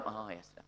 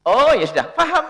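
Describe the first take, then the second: First: Soft, low, resigned let-it-go; resigned sigh. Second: Accepting. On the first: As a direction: drop it quietly. (pasrah, pelan dan lirih) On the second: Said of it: "Anda kan maklum". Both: Shown as a demonstration.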